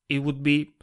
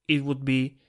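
Both takes have the same delivery.

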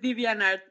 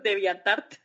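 First: The name is read with English sounds. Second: The name is read with Spanish sounds. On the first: The speaker calls it right. "Pero sí, es DeviantArt" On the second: The speaker calls it wrong. "lo leo muy castizamente, pues como con mi español colombiano"

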